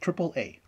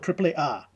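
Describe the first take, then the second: First: It is said with an English pronunciation. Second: It is said with a Spanish pronunciation. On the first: The speaker calls it right. "How about you keep it English?" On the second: The speaker calls it wrong. "we don't go"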